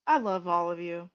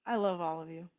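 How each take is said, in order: First: Said in the usual way. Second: Softer, tender echo; I love all of you, repeated soft and low. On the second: Real, not acted. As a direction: say it again quietly and warmly. Repeated affection to viewers.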